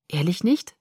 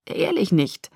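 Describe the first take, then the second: First: Tentative question, rising on "nicht". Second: Earnest assurance, falling at the end; solemn promise. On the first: Bella seeks Jacob's assurance, questioning. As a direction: ask "Ehrlich nicht" with a lift at the end. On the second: Jacob promises Bella he is no murderer, solemn. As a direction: promise it solemnly, settling downward. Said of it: "versprach er feierlich". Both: A narrator's reading.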